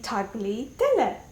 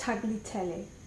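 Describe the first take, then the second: First: Every letter is sounded out as it is written. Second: It is said with the usual spoken pronunciation. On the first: The speaker calls it wrong. "in Turkish you pronounce things as they are written. So when I look at tagliatelle, I see tagliatelle" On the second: The speaker calls it right. "but it's tagliatelle"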